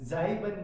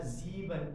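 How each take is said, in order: First: The first vowel sounds like 'ai'. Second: The first vowel sounds like 'ee'. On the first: The speaker calls it wrong. "आई ई जाइबन नहीं पढ़ना" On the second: The speaker calls it right. "जीवन पढ़ेंगे। ई पढ़ेंगे"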